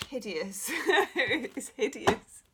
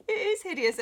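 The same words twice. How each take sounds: First: Laughing through the words; chuckling as she says it. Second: "is" hit high and loud, falling after; stress on IS. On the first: Laughing about own renovation. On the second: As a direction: punch "is" in "It is hideous". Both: Real, not acted.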